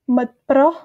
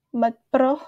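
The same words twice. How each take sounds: First: "mot pro" with rising pro; careful teacher demo; model word. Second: Said in the usual way. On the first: Shown as a demonstration. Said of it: "teacher models the word".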